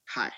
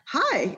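First: It sounds grumpy and flat. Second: It sounds cheerful and upbeat.

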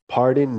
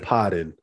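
First: It is said in a standard accent. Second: It is said in a Boston accent. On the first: The speaker calls it wrong. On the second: The speaker calls it right. "Boston accent"

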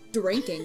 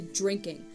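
First: The word starts with a clear D sound. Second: The word starts with a J-like sound. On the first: "we don't say drinking" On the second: "We say drinking. It sounded like a J to me"

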